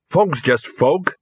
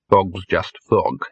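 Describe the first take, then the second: First: Slow, rising "Fog's just fog"; said aloud to reassure himself. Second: Slower, lower "Fog's just fog" falling at the end; uneasy repeat. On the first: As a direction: slowly talk yourself into "Fog's just fog", ending up. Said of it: "he said aloud". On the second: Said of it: "he repeated". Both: Acted.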